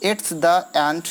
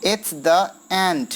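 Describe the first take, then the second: First: Said in the usual way. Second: "It's the end" very slow, word by word, "end" stretched; drawn-out scansion. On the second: Shown as a demonstration. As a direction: separate each beat and lengthen "end". ("It's the end" धीरे, "end" खींचकर) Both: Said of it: "एंड थोड़ा खिंचाता है".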